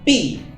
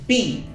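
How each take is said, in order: No difference in how they are said.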